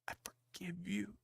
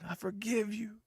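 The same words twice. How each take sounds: First: It is said quietly and hesitantly. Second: It is yelled loudly.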